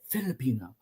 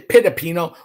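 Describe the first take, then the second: First: The word begins with an F sound. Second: The word begins with a P sound. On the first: The speaker calls it right. "We say" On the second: The speaker calls it wrong. "We don't say"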